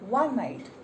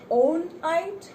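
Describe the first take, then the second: First: The word begins with a W consonant sound. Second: The word begins with an O vowel sound. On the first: The speaker calls it right. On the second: The speaker calls it wrong. "Did you pronounce it as O?"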